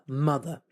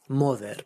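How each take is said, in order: First: The final vowel is a reduced schwa sound. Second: The final vowel is a full 'eh' sound. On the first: The speaker calls it right. "we don't pronounce it like that because we have this letter called a schwa" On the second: The speaker calls it wrong. "a Spanish person ... will pronounce it moder"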